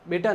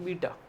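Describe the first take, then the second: First: The first vowel sounds like 'ay'. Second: The first vowel sounds like 'ee'. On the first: The speaker calls it wrong. "बेटा नहीं" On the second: The speaker calls it right.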